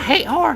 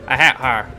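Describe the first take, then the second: First: It is said in Natsuki's character voice. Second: It is said in a voice unlike Natsuki's.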